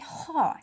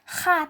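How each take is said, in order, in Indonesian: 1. Vokalnya berbunyi o. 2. Vokalnya berbunyi a. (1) "tetapi kho" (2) "Kita tidak membacanya kha"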